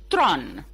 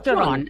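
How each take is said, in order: First: The name is said as one syllable. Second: The name is said as two syllables. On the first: The speaker calls it right. "saying it's Tron" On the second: The speaker calls it wrong. "not yeah, Theron"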